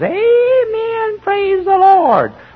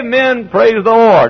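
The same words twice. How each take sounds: First: It is said mockingly. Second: It is said sincerely.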